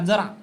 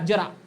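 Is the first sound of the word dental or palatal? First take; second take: dental; palatal. First: The first sound is dental, without a y-glide. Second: The first sound is palatal, with a y-glide. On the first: It means a little. "पण जर तुम्ही याचा अर्थ उच्चार असा केला" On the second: It means old age. "याचा उच्चार जर तुम्ही य युक्त केला"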